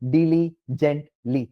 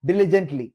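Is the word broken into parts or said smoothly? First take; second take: broken; smoothly. First: The word is broken into separate chunks with gaps. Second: The word is said smoothly as one unit. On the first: The speaker calls it wrong. "അത് മൂന്നായിട്ട് split ചെയ്തു" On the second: The speaker calls it right. "ഒറ്റ വേർഡായിട്ട് വായിക്കും"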